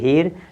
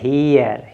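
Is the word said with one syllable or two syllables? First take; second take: one syllable; two syllables. First: The word is said as one short syllable. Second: The word is said as two drawn-out syllables. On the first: The speaker calls it wrong. "ये हीर नहीं है" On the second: The speaker calls it right. "तो आपका हो जाएगा हीयर"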